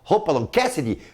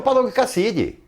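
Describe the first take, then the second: First: The name is said with an English pronunciation. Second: The name is said as Portuguese reads it. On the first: This is the original name. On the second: This is how everyone read it.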